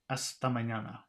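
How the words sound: Spanish-style melody that stays fairly flat.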